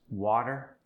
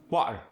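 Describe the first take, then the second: First: Said in the usual way. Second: South African "water", loud with a glottal stop; South African accent. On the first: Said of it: "For instance". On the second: Shown as a demonstration. Teaching the middle T, South African "water". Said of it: "you get that glottal stop".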